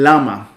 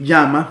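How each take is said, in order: First: The word begins with a plain 'l' sound. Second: The word begins with a 'y'-like sound. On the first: "le dicen lama, porque no tienen, esa, no tienen ese sonido" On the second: "en vez de decir llama"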